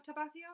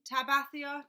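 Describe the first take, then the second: First: Tabathia asked back with a rising, doubtful tune; checking Tabathia, questioning rise; unsure retry. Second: Tabathia read out loud and sure, ta-BATH-ee-a; confident first stab at Tabathia; first try at a name. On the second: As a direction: call out Tabathia boldly as a first guess. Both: Real, not acted. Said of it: "Let me know if I'm saying, saying the name wrong".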